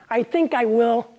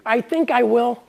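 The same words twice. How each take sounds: First: "will" said like "ill"; stress on will. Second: "think" punched high and loud; stress on think. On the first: Reading his book, landing on "will" like "ill". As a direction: lean on "will", rhyming with "ill". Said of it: "ill as in will". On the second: Reading his book aloud, stressing "think". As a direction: lean hard on "think". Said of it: "first think". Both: Shown as a demonstration.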